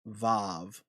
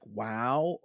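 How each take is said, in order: First: It begins and ends with a V sound. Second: It begins and ends with a W sound. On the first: This is another dialect's pronunciation. "that makes a V sound, not a W sound" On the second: This is the ancient pronunciation. "it makes a wow sound in the ancient context"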